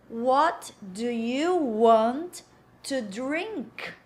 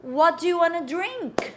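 First: Slow, word-by-word "What do you want to drink?"; slow full form. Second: Said in the usual way. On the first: Shown as a demonstration. Teacher modelling the question for learners, slow and separated.

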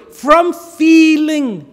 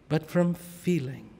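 First: Louder, slow and drawn out; from feeling, proclaimed slowly and loud; emphatic. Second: But from feeling, dropped soft; softer, letting it settle; hushed. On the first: To the congregation, a slow loud proclamation. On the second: To the congregation, repeating the point quietly. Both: Shown as a demonstration. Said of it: "repeats phrase, loud then hushed".

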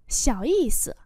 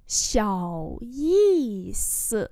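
First: Said in the usual way. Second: Very slow, syllable by syllable; slow model reading. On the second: Shown as a demonstration. Teacher modelling Chinese phrases for learners, slow and drawn-out. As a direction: stretch each syllable out for learners.

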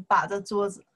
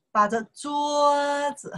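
First: Said in the usual way. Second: 桌 in 把着桌子 held long on a high level pitch; slow, sustained teaching demonstration; drawn-out model phrase. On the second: Shown as a demonstration. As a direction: stretch out 把着桌子 slowly for a learner. Teacher models the phrase, then repeats.

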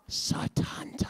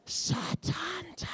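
First: Hushed, breathless naming; voiceless awed whisper of the name. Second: Slow, high stadium announcer cry; drawn-out high stadium call of Satanta; loudspeaker call. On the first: Acted. Whispered name before loudspeaker call. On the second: Retold or imitated. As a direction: call it out over the tannoy. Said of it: "cried out over the loudspeaker".

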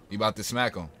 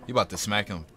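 No difference in how they are said.

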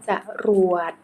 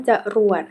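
First: จะรวด split as จะ-รวด; syllable-by-syllable reading. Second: Said in the usual way. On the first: Shown as a demonstration. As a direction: sound out จะรวด in two distinct syllables. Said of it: "อ่านว่าจะรวด". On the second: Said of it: "คำว่าจรวด".

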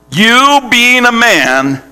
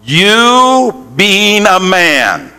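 First: "you being a man" raised higher and slow; emphatic repeat. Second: Slow shouted call. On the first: Preacher repeating the phrase to the congregation, emphatic. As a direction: drive home "you being a man" once more, higher. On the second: Preacher leading the congregation to repeat, shouting. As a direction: proclaim "You being a man" stretched out. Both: Shown as a demonstration. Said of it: "Say that".

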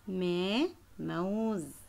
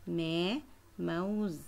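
No difference in how they are said.

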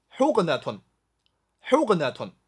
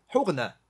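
First: حقنة ending in a sounded "-natun"; formal full ending. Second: حقنة ending in "-na", no "-tun"; colloquial short ending. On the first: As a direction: say حقنة in full with final "-tun". (正式读法：حقنة 词尾读出“-tun”) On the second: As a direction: clip the case ending off حقنة. (口语读法：حقنة 词尾只读“-na”) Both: Shown as a demonstration. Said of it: "口语".

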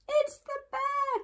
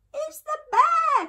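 First: Very high squeal without extra volume; alarmed cry. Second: Put-on very high, loud child's cry; frightened cry. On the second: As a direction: cry out in high-pitched alarm. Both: A narrator's reading. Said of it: "cried Eddie".

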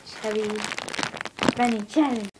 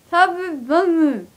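First: Said in the usual way. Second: Slow and slurred around a full mouth. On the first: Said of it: "today I'm going to do the". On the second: Real, not acted. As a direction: talk through cheeks stuffed with marshmallows. Seven marshmallows in mouth.

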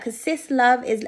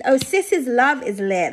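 First: Said in the usual way. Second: "sis's" said slowly with the extra S clearly sounded, "sis-iz"; added possessive S. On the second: Real, not acted. Reader correcting the card's grammar aloud, slow, stressing the S. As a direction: stretch "sis's" so the possessive S is heard. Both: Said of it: "Should have put, like, an extra S".

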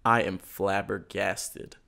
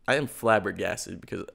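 First: Drawn out dramatic opener; slow dramatic. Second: Said in the usual way. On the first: Real, not acted. Opening his story to a friend, slow and dramatic. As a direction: stretch it out for effect.

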